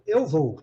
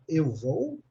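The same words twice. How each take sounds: First: The voice falls at the end like a statement. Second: The voice rises at the end like a question. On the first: It states that the speaker is going. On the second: It asks whether the speaker is going.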